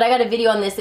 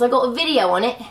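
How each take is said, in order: First: Said in the usual way. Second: British-tinged delivery, lifting at the end; British accent. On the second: Real, not acted. Vlogger telling viewers about her video, accidental British accent. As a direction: slip into a light British accent. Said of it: "Don't know why we got British there".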